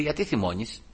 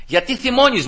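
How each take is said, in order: First: Soft, quiet question; gentle divine rebuke. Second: High-pitched repeated challenge; insistent question. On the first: The Lord questions the angry preacher, gentle rebuke. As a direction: gently call out the anger. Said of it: "ήρθε ο Κύριος και μου λέει". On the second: The Lord's question echoed after the protest, insistent challenge. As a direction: press the question in a raised pitch. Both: Retold or imitated.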